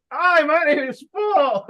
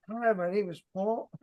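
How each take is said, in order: First: High, loud, drawn-out goofy voice; hammed-up awkward salesman introducing himself; mock a clueless rep, stretched out and high; hunched-over weirdo. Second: Soft, feeble mock introduction; small, weak voice at the door; no projection. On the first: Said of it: "you're hunched over, you're not giving any eye contact". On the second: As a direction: imitate a timid rep who can't project. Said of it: "you have to have good projection in your voice". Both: Shown as a demonstration.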